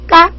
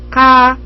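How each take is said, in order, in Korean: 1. k는 된소리이고 숨이 나오지 않아요. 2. k는 숨이 약하고 가볍게 나와요. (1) "쌍기역으로 발음해 보겠습니다. ... 이것도 아니에요" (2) "카와 까의 중간 발음"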